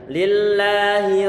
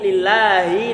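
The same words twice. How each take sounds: First: The final vowel is kept short. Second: The final vowel is drawn out long. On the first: The speaker calls it right. "Haknya kita kasrokan pendek saja tanpa kita panjang-panjangkan" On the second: The speaker calls it wrong. "Kalau dipanjangkan sebagaimana lillahi"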